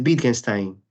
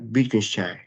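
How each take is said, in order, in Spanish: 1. El nombre se pronuncia con sonidos parecidos a los del español. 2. El nombre se pronuncia con sonidos parecidos a los del alemán. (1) "la versión mejor castellanizada" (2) "según un amigo se tiene que pronunciar Wittgenstein"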